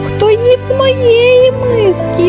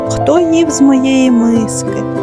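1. Тонкий, високий, писклявий голос. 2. Гучний, страшний, ревучий голос. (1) "запищав тоненьким голоском" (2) "заревів страшним голосом"

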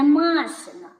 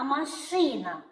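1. Наголос на першому складі. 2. Наголос на другому складі. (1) "Не «машина»" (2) "а «машина»"

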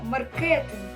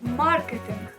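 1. Наголос падає на наступний склад. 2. Наголос падає на перший склад. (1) "Ми з вами не кажемо маркетинг" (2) "Наголос ставиться на літеру А"

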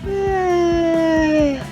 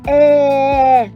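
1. Звук розтягнутий, як позіхання. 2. Звук протягнутий, дражнячись. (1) "А це бегемот позіхає у зоопарку. Ось так" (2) "Це мавпа, яка дражниться у зоопарку. Ось так"

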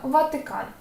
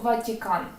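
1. Звук «т» твердий, далі голосний заднього ряду. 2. Звук «т» м'який, далі голосний «і». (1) "звучать твердо" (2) "ми ж не кажемо"

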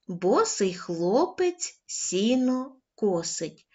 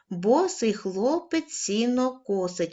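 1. Читається повільним темпом. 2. Читається помірним темпом. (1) "Спочатку повільно" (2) "кожного разу будемо пришвидшувати темп"

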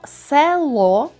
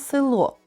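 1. Перший голосний — чисте «е». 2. Перший голосний звучить близько до «и». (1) "Пишемо «село»" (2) "а вимовляємо «село», «е» наближене до «и»"

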